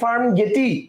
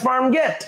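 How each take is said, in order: First: The second word ends with an extra vowel sound. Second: The second word ends on a plain 't' sound. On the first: It reads the full English spelling letter by letter. The speaker calls it wrong. "এটার উচ্চারণ যদি করতে চান, এটা হবে হচ্ছে ফার্ম গেটি" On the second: It follows how the name is actually pronounced. The speaker calls it right. "This is ফার্ম গেট"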